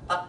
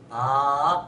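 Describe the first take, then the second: First: The syllable is clipped very short. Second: The syllable is drawn out long. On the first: "하고 짧게 발음할 거냐?" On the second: "하고 길게 발음할 거냐?"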